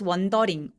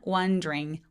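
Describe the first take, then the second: First: The d and r are pronounced separately. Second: The d and r are blended together. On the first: The speaker calls it wrong. "wondering보다는" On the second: The speaker calls it right. "D하고 R을 한꺼번에 발음해 보세요"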